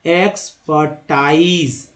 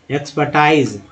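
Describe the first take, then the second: First: एक्सपर्टाइज slowly as एक्स-पर-टाइज; syllable by syllable. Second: Said in the usual way. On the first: Shown as a demonstration. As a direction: draw out each syllable of एक्सपर्टाइज. Slow demo, then normal repeat.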